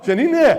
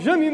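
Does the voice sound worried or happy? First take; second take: happy; worried. First: The name is said in a happy voice. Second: The name is said in a worried voice.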